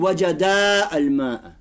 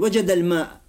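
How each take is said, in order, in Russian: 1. Конечный гласный первого слова долгий. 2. Конечный гласный первого слова краткий. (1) "не говорим" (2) "этот алиф, он не читается, он уходит"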